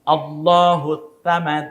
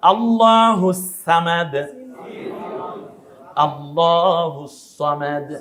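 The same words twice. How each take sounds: First: আল্লাহু সামাদ with a plain s in সামাদ; slow demo, সামাদ on a light s; teacher's wrong-letter demo; said with sin. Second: আল্লাহু সামাদ, সামাদ on a heavy emphatic s; slow, corrected recitation of সামাদ; teacher's corrected demo; said with sad. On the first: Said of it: "সামাদ কি দিয়ে বলেছি?". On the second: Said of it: "sorry". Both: Shown as a demonstration.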